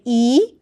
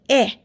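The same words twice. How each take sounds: First: E held as a long "ee"; long vowel sound. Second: E said short, as "eh"; short vowel sound. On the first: Teacher showing learners the first vowel, long E sound. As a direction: say E long, like the letter's name. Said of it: "has a long sound E". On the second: Teacher showing learners the second vowel, short E sound. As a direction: clip E to the short "eh" of bed. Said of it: "and a short sound". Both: Shown as a demonstration.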